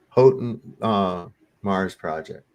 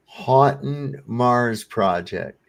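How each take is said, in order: First: Retry "Houghton" with a long O; second pronunciation attempt. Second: "Houghton" said HAW-tun, slowly; first pronunciation attempt. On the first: Correcting the sticker reading, "Houghton" sounded as HOE-tun. Retries the unfamiliar name differently. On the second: Reading a sticker aloud, "Houghton" sounded as HAW-tun. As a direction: read it slowly, "Houghton" as HOT-un. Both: Shown as a demonstration.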